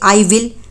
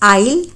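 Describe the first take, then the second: First: It is said as two full words. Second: It is said as one contracted syllable.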